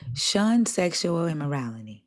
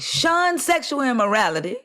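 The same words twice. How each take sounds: First: It is read in a plain, calm way. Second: It is read forcefully, like an exclamation.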